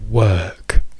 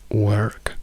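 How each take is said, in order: First: It is said with a British accent. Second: It is said with an American accent.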